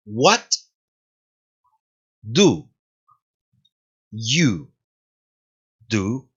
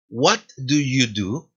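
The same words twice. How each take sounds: First: What, do, you, do? each said alone with long pauses; slow separated words of the question. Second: What do you do? said slowly as one phrase rising at the end; slow connected question rising at the close; slow joined question. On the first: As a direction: say "What do you do?" one word at a time. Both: Shown as a demonstration. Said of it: "pronunciación".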